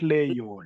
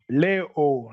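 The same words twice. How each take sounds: First: A y glide is inserted between the vowels. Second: The vowels join directly with no y glide. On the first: The speaker calls it wrong. "Don't bring the Y there" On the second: The speaker calls it right. "Leo, not Leo"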